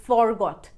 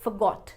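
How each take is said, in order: First: "forgot" with full "for"; slow, split "for-got"; wrong pronunciation. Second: "forgot" as "fuh-got"; short schwa, no r in "forgot"; weight on "got" in "forgot"; correct pronunciation. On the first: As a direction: sound out "for" in "forgot". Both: Shown as a demonstration. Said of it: "ना कि".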